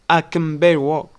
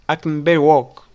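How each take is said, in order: First: The word can is reduced to kin. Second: The word can is reduced to kin.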